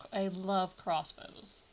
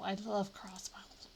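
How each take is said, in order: First: Said in the usual way. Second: Slow, breathy whisper on "love". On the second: Real, not acted. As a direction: whisper "I love crossbows" slowly, leaning on "love". Gushing about crossbows, then repeats.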